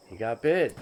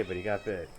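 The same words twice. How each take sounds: First: "bit" stressed with a falling tune; "He got bit" with the weight on "bit". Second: "got" stressed, softly, with a falling tune. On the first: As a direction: land hard on "bit". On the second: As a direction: lean on "got", keep "bit" light. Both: Shown as a demonstration.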